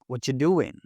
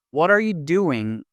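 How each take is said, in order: First: "What you doing" blended into "whatcha doing"; casual linked "What you doing", the "are" swallowed; connected speech. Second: Each word pronounced separately; unreduced "What are you doing", full "are you"; careful full form. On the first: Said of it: "sounds like". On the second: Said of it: "They don't pronounce each word separately". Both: Shown as a demonstration.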